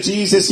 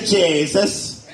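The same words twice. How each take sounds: First: Said in the usual way. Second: Jesus said as "Jay-zus", the E turned to an A; slow, stretch Jesus into "Jay-zus" with a mock Irish A. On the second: Shown as a demonstration. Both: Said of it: "Just take your E's and turn 'em into A's".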